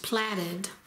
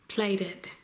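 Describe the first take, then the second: First: The first syllable sounds like 'plat'. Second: The first syllable sounds like 'plate'. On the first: The speaker calls it wrong. "I always thought that that word was pronounced platted" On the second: The speaker calls it right. "they pronounced it plate, plated"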